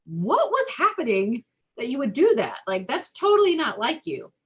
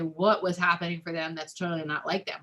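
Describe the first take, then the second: First: Higher, louder caring surprise; concerned parent. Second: Calm parent. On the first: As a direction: gently ask the child what happened, voice lifted high. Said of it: "rather than, like". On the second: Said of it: "When I calm down, I can say". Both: Retold or imitated.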